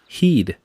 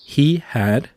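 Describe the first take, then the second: First: The words merge into one short contracted syllable. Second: Both words are said fully and separately. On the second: "formamos contracciones como"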